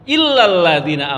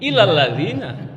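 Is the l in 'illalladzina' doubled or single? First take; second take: doubled; single. First: The first l is doubled and held. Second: The first l is single and short. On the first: Except those who. The speaker calls it right. "Harusnya illa kecuali" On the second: To those who. The speaker calls it wrong. "Illalladzina kepada orang-orang jadinya"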